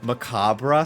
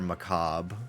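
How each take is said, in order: First: It is said with a British pronunciation. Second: It is said with an American pronunciation. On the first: The speaker calls it right. "the British, you kind of ate with the pronunciation of macabre" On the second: The speaker calls it wrong. "because they're American"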